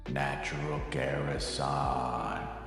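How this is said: It is called out in a big booming voice.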